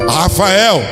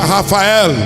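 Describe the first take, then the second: First: The name has its usual Portuguese pronunciation. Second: The name has its Hebrew pronunciation.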